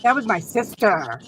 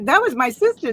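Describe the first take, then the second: First: It is said without a proud tone. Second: It is said in a proud tone. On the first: An older sibling speaks of a younger one. "That's the way my sister says when she refers to me" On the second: A younger sibling speaks of an older one. "I was always so proud of her"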